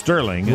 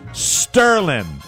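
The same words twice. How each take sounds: First: The word ends with a full 'ng' sound. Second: The word ends in 'n' with no 'g' sound. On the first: The speaker calls it right. "Be pronounced Sterling" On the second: The speaker calls it wrong. "S-T-E-R-L-I-N apostrophe"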